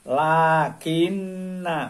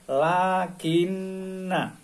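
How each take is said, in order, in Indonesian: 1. Vokal akhir itu pendek dan bersambung. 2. Vokal akhir itu pendek dan bersambung.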